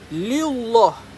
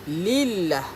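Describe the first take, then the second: First: The L is said thick with rounded lips. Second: The L is said thin and light. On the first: The speaker calls it wrong. "Kita tak sebut lillah" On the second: The speaker calls it right. "Kita sebut lillah"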